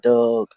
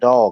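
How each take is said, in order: First: The vowel sounds like the vowel in 'Doug'. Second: The vowel is the plain, open 'dog' vowel. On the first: "They call him Doug" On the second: "They don't call dog dog"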